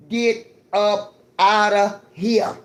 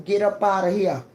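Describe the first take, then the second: First: Stretched-out loud get up outta here; slow, loud dismissal to the privileged; louder, slower repeat. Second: Said in the usual way. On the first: Real, not acted. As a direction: drag out outta and push it loud.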